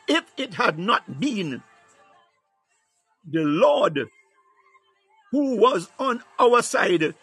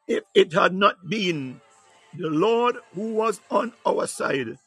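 First: It is read slowly and deliberately. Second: It is read at a normal pace.

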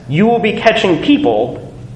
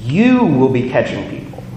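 First: The emphasis falls on the word people. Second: The emphasis falls on the word you. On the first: People will be caught instead of fish. The speaker calls it wrong. "with the emphasis on the word "people."" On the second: The listener will do just what the speaker did. The speaker calls it right. "with the emphasis on the "you.""

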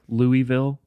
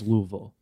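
First: The name is said in a general, non-Southern way. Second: The name is said in a Southern local way.

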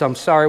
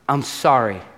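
First: It ends as if more is coming. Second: It ends with a final, finished fall.

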